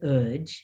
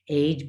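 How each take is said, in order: First: The vowel is changed from the spelled sound. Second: The vowel sounds as the spelling suggests. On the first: The speaker calls it right. "but udge" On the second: The speaker calls it wrong. "It's not age"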